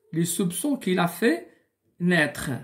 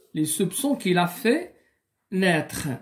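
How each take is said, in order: Both takes have the same delivery.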